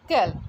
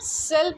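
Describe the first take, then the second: First: The word begins with a k sound. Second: The word begins with an s sound. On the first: The speaker calls it wrong. "ना कि कैल" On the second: The speaker calls it right. "इसको हम सेल pronounce करते हैं"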